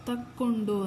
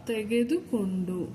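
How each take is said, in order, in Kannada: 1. ಈ ಪದವನ್ನು ಚಿಕ್ಕದಾಗಿ, ಸಂಕುಚಿತ ರೂಪದಲ್ಲಿ ಹೇಳಲಾಗುತ್ತೆ. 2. ಈ ಪದವನ್ನು ಅದರ ಪೂರ್ಣ, ಉದ್ದ ರೂಪದಲ್ಲಿ ಹೇಳಲಾಗುತ್ತೆ. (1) "ಬಾಯಲ್ಲಿ ಮಾತಾಡುವಾಗ ತಕ್ಕೊಂಡು ಅಂತ ಆಡು ಭಾಷೆಯಲ್ಲಿ ಮಾತಾಡ್ತೀವಿ" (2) "ಬುಕ್ಲಿ ಬರೆಯುವಾಗ ಅಥವಾ ಪೇಪರ್ಲಿ ಬರೆಯುವಾಗ ಇದನ್ನು ಈ ಥರ ಬರಿತೀವಿ"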